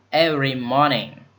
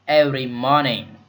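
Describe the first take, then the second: Both takes have the same delivery.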